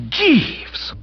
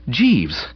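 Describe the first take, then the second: First: Very high, sharp outcry; appalled exclamation. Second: Hesitant, apprehensive address; faltering. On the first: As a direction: cry the name in horror. Appalled narrator rebukes Jeeves. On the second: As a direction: say the name with dawning dread. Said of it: "I faltered". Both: A narrator's reading.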